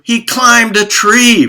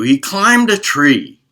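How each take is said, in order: First: Much higher, louder, slowed statement; emphatic punchline. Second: Louder, slowed restatement; emphatic repeat. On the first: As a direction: land the twist with big emphasis. Punchline of the correction. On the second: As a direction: drive the point home again. Repeated punchline. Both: Acted.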